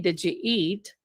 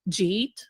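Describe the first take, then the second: First: The three words are said separately and fully. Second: The words are blended into one short syllable. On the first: "you don't say" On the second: "It's Jeet"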